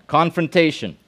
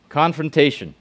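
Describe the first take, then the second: No difference in how they are said.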